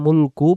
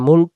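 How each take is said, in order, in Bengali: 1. শব্দটি একটি যোগ করা u স্বরধ্বনি দিয়ে শেষ হয়। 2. শব্দটি ব্যঞ্জন k দিয়ে শেষ হয়। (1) "দমটা ধরে গেলে মুলকু পড়ে" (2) "যদি এই জায়গায় আমরা দমটা ছেড়ে দেই তাহলে মুলক হবে"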